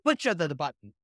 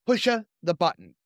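First: "Pusha the, the button" in a hammed-up cartoon Italian plumber voice; mock Mario voice. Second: Condemned man reading. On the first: Cohost riffing on the Mario joke, mock Mario voice. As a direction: goof on it like a video game plumber. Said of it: "all of this being done by Chris Pratt as Mario". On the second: Acted. Condemned man's last words read with mild defiance. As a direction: give the last line plainly with mild defiance. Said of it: "I'm just gonna read it as it was written".

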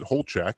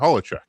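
First: Holchek in two syllables, HOLE-check; speaker's old pronunciation. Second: Holacek in three syllables, HOLL-a-check; European pronunciation. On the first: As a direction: say Holchek with no middle vowel. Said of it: "I pronounce it Holchek". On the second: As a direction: say Holacek with a short middle vowel. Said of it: "it's pronounced Holacek". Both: Shown as a demonstration.

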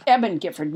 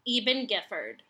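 First: "Eben" said EB-en; short-E Eben. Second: "Eben" said EE-ben; long-E Eben. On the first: Shown as a demonstration. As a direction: say "Eben" with a short first E, as in "ebb". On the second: Real, not acted. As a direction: say "Eben" with a long first E, as in "even". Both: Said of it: "I think it might be Eben Gifford".

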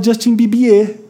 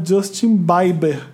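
First: Bibier said "bee-bee-EH", French style; mother's French-style pronunciation. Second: Justin Bieber said the way they wrongly used to say it, "BYE-ber"; own old mispronunciation. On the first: Retold or imitated. Host quotes their mother, [name] in French-style "bee-bee-EH". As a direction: imitate mom saying Justin Bibier with the final syllable stressed. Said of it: "minha mãe, ela fala". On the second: Shown as a demonstration. Confessing an old mistake from 2009, [name] mispronounced as "BAI-ber". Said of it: "pronunciar o nome dos artistas errado".

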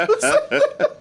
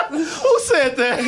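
First: High-pitched giggly disbelief; high laughing squeal. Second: Slow incredulous question; slow laughing disbelief. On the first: Repeated question in disbelief. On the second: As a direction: drag it out, laughing. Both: Real, not acted.

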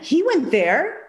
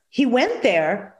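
First: He went there with WENT lifted higher and rising; emphasis take. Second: Said in the usual way. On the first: Shown as a demonstration. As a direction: lean up on "went" and let the line rise. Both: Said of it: "Now put the emphasis on".

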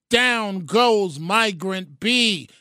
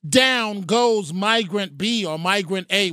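First: Slow, drawn-out boxing announcer call; mock Cosell knockdown call; ringside call. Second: Said in the usual way. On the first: Shown as a demonstration. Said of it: "It's no longer Down Goes Frazier with Howard Cosell". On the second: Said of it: "It's no longer Down Goes Frazier".

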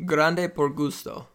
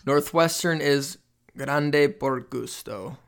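First: Spanish accent. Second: Slow Spanish accent on grande por gusto. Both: Shown as a demonstration.

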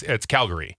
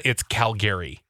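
First: Calgary as "CAL-guh-ree"; usual American pronunciation. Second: Calgary as "Cal-GARE-ee"; Calgary ending like the name Gary; Canadian-family pronunciation. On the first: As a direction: reduce the middle of Calgary to "guh". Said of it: "is how I've always known it". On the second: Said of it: "In Canada". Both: Shown as a demonstration.

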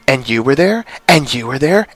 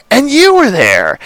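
First: Said in the usual way. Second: Pitched up, a bit louder, ends falling; higher dramatic take. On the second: Retold or imitated. Recapping Emma's dream to podcast cohosts, higher theatrical repeat. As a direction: lift the last repeat into a theatrical flourish. Reciting the Wizard of Oz line.

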